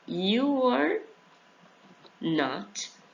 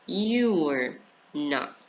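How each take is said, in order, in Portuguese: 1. Cada palavra é dita completa e separadamente. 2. As duas primeiras palavras são contraídas juntas.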